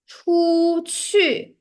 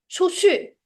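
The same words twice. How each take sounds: First: It is said carefully with full tongue movement. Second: It is said quickly with a relaxed tongue. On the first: "the standard pronunciation would be" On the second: "The lazy pronunciation is"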